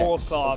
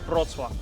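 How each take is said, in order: First: The name is read as its English spelling suggests. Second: The name is said with its native Polish sounds. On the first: The speaker calls it wrong. "It's just not spelled that way, so I want to say it like you know" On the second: The speaker calls it right.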